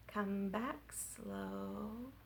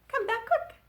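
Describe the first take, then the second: First: Very slow, much softer. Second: Much higher, louder; quick. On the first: Children's rhyme, slow line sung drawn-out. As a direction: crawl through it. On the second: Children's rhyme, quick line sung high. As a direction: fire it up high. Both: Shown as a demonstration.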